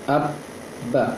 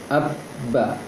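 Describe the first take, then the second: The two takes are said the same way.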